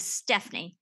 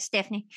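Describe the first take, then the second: First: Said in the usual way. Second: West Texas accent. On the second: Shown as a demonstration. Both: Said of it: "if you say it with a West Texas accent".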